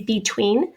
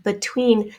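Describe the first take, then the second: First: "between" starting with a full "bee"; long E in both syllables of "between". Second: "between" starting with a relaxed "buh"; unstressed schwa in the first syllable of "between". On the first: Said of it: "Some people say between". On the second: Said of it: "I tend to say a schwa". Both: Shown as a demonstration.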